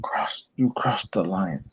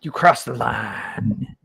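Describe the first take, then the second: First: Slow, low growled threat; a hint of pro wrestler menace; wrestling promo. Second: Slow, drawn-out wrestler threat; wrestling promo. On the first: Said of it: "if you say that, you gotta say it". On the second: Shown as a demonstration. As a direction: ham up a pro wrestler line. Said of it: "pro wrestler style".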